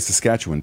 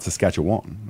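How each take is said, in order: First: The name is said the way locals say it. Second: The name is said the way outsiders say it. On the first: The speaker blends in with the locals. The speaker calls it right. "I say Saskatchewan, too" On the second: The speaker sounds like an outsider. The speaker calls it wrong. "not Saskatchewan"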